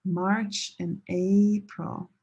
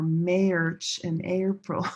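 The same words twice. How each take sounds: First: March with "ah", April with a long "AY"; slow correct March and April, drawing out AY in April; different vowel sounds. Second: March mispronounced MAYRCH, with the long A of April; wrong vowel demo. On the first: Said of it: "different sounds". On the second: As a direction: slowly say March as "mairch" to match AY-pril. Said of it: "These are different". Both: Shown as a demonstration.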